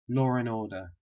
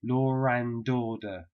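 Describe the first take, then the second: First: The D is dropped between 'and' and 'order'. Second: The D is pronounced and linked to 'order'. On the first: "But I dropped the D" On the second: "if you want to pronounce it really clearly"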